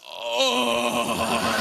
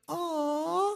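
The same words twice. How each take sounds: First: It is said in a coarse, rough voice. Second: It is said in a soft, smooth voice.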